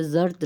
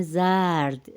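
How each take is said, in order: First: Said in the usual way. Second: زرد with the short a pulled long, "zaard"; stretched vowel. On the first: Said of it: "Urdu میں بھی ہم جیسے زرد". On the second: Shown as a demonstration. Teacher shows the Persian yellow, stretched vowel. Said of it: "زبر کو ذرا کھینچ کے".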